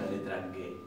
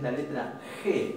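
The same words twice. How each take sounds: First: The G is said with a hard g sound. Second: The G is said with a throaty j sound. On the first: The speaker calls it wrong. "no decimos la letra G" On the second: The speaker calls it right. "nosotros a la letra G la nombramos con el sonido de la J"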